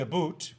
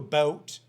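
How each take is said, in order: First: It is said in a Canadian accent. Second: It is said in a standard American accent.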